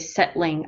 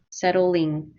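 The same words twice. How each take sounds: First: It is said with a British accent. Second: It is said with an American accent. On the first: "maybe in England they say settling" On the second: "but we say settling. ... We say it like a dull"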